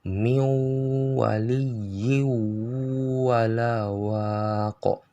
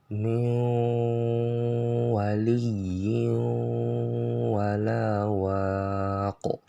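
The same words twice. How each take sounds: First: The n merges fully, leaving no nasal trace. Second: The n leaves a nasal trace before w. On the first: The speaker calls it wrong. "Jadi bacanya yang salah" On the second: The speaker calls it right. "bacaan yang benar itu masih ada sifat dengung dari nunnya"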